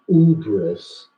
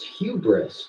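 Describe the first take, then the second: First: The word begins directly with a vowel. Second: The word begins with an h sound. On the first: The speaker calls it wrong. "you pronounced it wrong" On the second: The speaker calls it right. "It's hubris"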